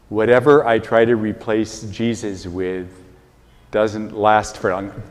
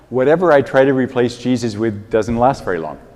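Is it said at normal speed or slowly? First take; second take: slowly; normal. First: It is said slowly and deliberately. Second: It is said at a normal pace.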